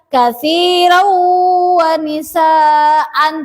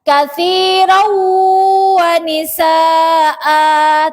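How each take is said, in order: First: The last word ends in an n sound. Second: The last word ends in a long vowel. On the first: The speaker calls it wrong. "Tidak boleh dibaca" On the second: The speaker calls it right. "cara bacanya seperti mat asli"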